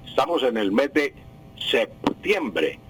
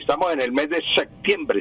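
First: The consonant before the t is a clear p. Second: The consonant before the t sounds like k. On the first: The speaker calls it right. "septiembre con P" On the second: The speaker calls it wrong. "septiembre como si fuera con de secta, con C"

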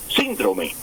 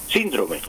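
First: The stress is on the first syllable. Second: The stress is on the first syllable.

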